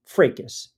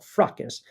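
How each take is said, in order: First: Fracas said as FRAY-kus, long A in the first syllable; fracas pronounced one way. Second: Fracas said as FRAH-kus, open ah in the first syllable; fracas the other way. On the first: Host checks the word fracas, long A FRAY-kus. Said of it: "I thought it was pronounced fracas". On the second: Host gives the other reading of fracas, FRAH-kus. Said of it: "some people call it fracas". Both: Shown as a demonstration.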